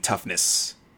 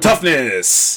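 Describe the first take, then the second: First: The word is said at normal, calm volume. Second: The word is yelled loudly with great force. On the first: "I probably should say it with a little bit more oomph" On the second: "Hopefully, I didn't just blow my microphone out"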